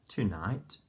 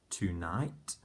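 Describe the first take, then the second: No difference in how they are said.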